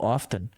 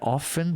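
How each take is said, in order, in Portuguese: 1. O som do T no meio é pronunciado. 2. O som do T no meio é silencioso. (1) "você falou often" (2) "você não fala o T"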